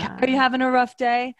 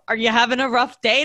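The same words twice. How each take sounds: First: The question is asked in a calm, even tone. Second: The question is asked in a condescending, mocking tone. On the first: The speaker sincerely cares how the listener feels. The speaker calls it right. "he stays super calm while he's saying it" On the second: The speaker is annoyed and looks down on the listener. The speaker calls it wrong. "it would be very condescending"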